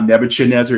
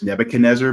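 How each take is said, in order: First: The 'ch' is said as a 'ch' sound. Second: The 'ch' is said as a 'k' sound. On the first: The speaker calls it wrong. "it's not Nebuchadnezzar" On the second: The speaker calls it right. "the C H is actually a K sound"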